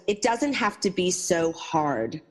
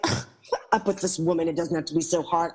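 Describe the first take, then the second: First: Gentle wisdom. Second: Mild scoff, brushing the advice off; a touch of snooty disdain; dismissive attitude. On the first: Homeless woman advises the narrator at dawn, slow and gentle. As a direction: say it slowly like a kind truth. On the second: Narrator mocks her younger self dismissing the woman, lightly scornful. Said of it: "That kind of attitude". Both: Retold or imitated.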